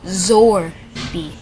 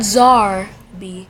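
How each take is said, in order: First: The first vowel sounds like 'or'. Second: The first vowel sounds like 'ar'. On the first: The speaker calls it right. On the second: The speaker calls it wrong.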